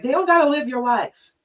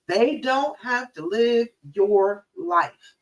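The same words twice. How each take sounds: First: Said in the usual way. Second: Each word of "They don't have to live your life" drawn out; slow right down, weighting "don't" and "your life"; slow emphatic restatement. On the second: Shown as a demonstration. Coach repeating the point to listeners, slow and emphatic.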